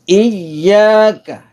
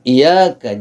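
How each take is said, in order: First: The y sound is pressed and held double. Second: The y sound is light and single. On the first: The speaker calls it right. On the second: The speaker calls it wrong. "Jangan iyaka"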